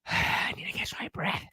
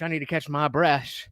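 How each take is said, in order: First: Breathless whisper; whispered out of breath. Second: Winded after exercise; breathless, catching air; out of breath. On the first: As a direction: whisper through heavy breathing. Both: Real, not acted.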